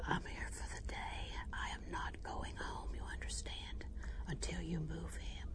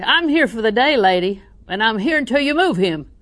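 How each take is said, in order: First: Firm whisper. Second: Higher, much louder, demanding yell; mock shout. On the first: Retold or imitated. To the desk lady, refusing to leave, a firm whisper. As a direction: whisper it, dead serious and immovable. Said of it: "And I whispered". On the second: Shown as a demonstration. To the desk lady, the yell she did not use, a demanding shout. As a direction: show the shout she never used. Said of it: "I don't ever shout".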